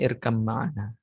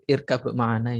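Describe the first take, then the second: First: The b merges into an m before ma'ana. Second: The first word ends with a clear b sound. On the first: "bacanya irkam ma'ana" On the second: "Kalau kita baca irkab ma'ana"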